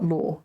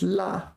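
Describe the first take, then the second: First: The syllable ends in a rounded 'aw' vowel. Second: The syllable ends in an open 'ah' vowel. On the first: The speaker calls it wrong. "not law" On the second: The speaker calls it right. "pay attention to the pronunciation of this one because it is la"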